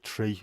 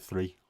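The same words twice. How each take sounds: First: "tree" for three, with a hard T; Irish-influenced Scouse TH. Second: Said in the usual way. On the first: Shown as a demonstration. Showing the Irish in Scouse, "tree" with a T. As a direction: say "tree" with T in place of TH. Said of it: "things like tree instead of three". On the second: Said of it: "tree instead of three".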